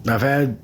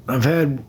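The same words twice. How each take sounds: The two takes are said the same way.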